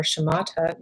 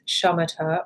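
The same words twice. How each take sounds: First: "shamatha" said shuh-MAH-tuh; stress on second syllable. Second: "shamatha" said SHAH-muh-tuh; stress on first syllable. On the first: Meditation guide giving the other pronunciation, "shamatha" stressed shuh-MAH-tuh. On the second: Meditation guide giving one name for the practice, "shamatha" stressed SHAH-muh-tuh. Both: Shown as a demonstration. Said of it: "also referred to as shamatha or shamatha".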